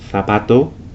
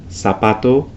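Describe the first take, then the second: First: The z is said like English th. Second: The z is said like English s. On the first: This is how it is said in Spain. "the Spanish pronunciation of the Z is similar to the T H in English" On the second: This is how it is said in Latin America. "in Latin America, these same words would be pronounced"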